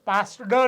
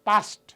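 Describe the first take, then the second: First: The ending is pronounced as a d sound. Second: The ending is pronounced as a t sound. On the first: The speaker calls it wrong. "નથી" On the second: The speaker calls it right. "પાસ્ટ તો અહીંયા ટ છે"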